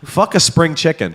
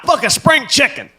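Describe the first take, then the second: First: It is said in his normal own voice. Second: It is said in an imitation of Don.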